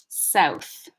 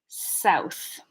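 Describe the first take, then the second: The two takes are said the same way.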